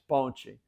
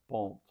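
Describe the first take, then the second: First: The t sounds like ch before the final vowel. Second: The t sounds like a plain t. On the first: This is how Brazilians say it. "They pronounce the t kind of like a ch" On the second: This is how people from Portugal say it. "Then they asked the person from Portugal"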